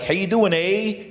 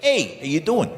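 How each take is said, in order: First: Polite Canadian greeting, lightly imitated; mock Canadian accent with a tagged-on "eh". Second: Tough New York greeting, imitated; mock New York accent, punched "Hey". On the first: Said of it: "In Canada, they're like". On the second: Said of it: "in New York, they're like".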